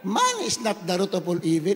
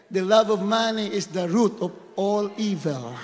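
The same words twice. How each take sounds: First: "not" leaned on to correct the misquote; stress on not. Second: Said in the usual way. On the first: Shown as a demonstration. Preacher correcting the famous misquote, stressing not. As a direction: press "Money is not the root" as a correction.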